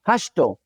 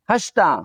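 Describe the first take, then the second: First: "השתו" ending in an o vowel; Western Aramaic o ending. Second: "השתה" ending in an a vowel; standard a ending. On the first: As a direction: end "השתו" on oh, as hashto. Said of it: "in my accent". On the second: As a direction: end "השתה" on ah, as hashta. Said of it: "instead of saying we say lahmo". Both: Shown as a demonstration.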